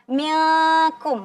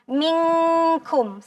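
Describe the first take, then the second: First: The n sound is not carried through the nose. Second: The n sound goes fully through the nose. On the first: The speaker calls it wrong. "bukan dibaca milkum" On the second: The speaker calls it right. "maka hidup bunyinya semua ke hidung. Jadi minkum seperti itu"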